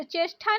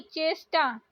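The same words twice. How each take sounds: First: चेष्टा with aspirated "tha"; breath puff on t of चेष्टा; wrong pronunciation. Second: चेष्टा with plain "ta"; no puff on t of चेष्टा; correct pronunciation. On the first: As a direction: say चेष्टा as "cheshtha". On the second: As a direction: say चेष्टा as "cheshta". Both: Shown as a demonstration. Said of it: "चेष्टा नहीं".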